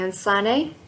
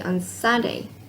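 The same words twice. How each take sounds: First: The voice rises at the end. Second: The voice falls at the end. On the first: Sunday is old information. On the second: Sunday is new information.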